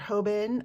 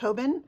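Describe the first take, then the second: First: The name is said slowly and drawn out. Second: The name is said quickly and smushed together.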